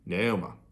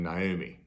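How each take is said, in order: First: The name ends with an 'a' sound. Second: The name ends with an 'i' sound. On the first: "more like an A sound on the end" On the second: This is the usual general pronunciation. "like an I, like I would naturally pronounce it"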